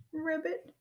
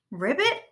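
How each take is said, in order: First: Small, high sad frog voice; a touch tearful, pitched up; sniffled. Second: High, loud exasperated question; cried out. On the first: Ribbit upset over broken Robot, mildly sniffling. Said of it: "sniffled Ribbit". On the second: Rabbit throwing the frog's word back, crying out. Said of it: "cried Rabbit". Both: A narrator's reading.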